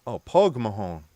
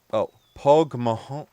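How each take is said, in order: First: "pog mahon" with a falling end, said with certainty; landing "pog mahon" with a firm falling close; settled Irish phrase. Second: "pog mahon" with a rising end, like a question; testing "pog mahon" with the pitch going up; trying the Irish. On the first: Confirming the Irish phrase to chat, falling. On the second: Sounding out the Irish phrase for chat, rising. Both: Shown as a demonstration. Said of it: "repeats the phrase twice".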